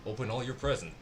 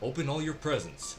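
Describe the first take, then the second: First: It is read in the speaker's ordinary voice. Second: It is read in a put-on character voice.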